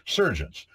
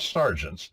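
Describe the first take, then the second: First: The word is said with an English vowel. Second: The word is said with an American vowel. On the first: "That's the English way to say sergeants" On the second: "not sergeants"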